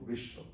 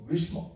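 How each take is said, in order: First: It is said the way people actually pronounce it. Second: It is sounded out following the written spelling. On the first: This is how the word is actually spoken. "উচ্চারণ করব" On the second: This is how the word is written. "আমরা লিখব"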